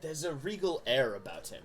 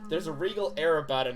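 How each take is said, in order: First: It is read in a put-on dramatic narrator voice. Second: It is read in an ordinary speaking voice.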